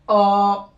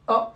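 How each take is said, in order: First: The vowel is held for two beats. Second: The vowel is short and brief. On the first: "prolongation en deux temps" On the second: "c'est court, c'est bref"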